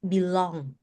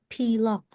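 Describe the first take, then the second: First: The word begins with a B sound. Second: The word begins with a P sound. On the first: The speaker calls it right. "B. B. Belong" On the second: The speaker calls it wrong. "It's not belong. B"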